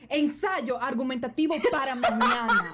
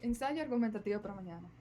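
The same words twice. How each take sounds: First: It is said loudly, like screaming. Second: It is said at a normal volume.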